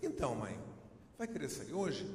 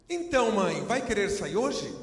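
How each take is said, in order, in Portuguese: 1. É dito de forma casual, como numa conversa do dia a dia. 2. É dito de forma exagerada, teatral, como no palco. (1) "se eu for falar com a minha mãe, eu vou dizer assim" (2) "Se for uma peça de teatro, eu acabo dizendo"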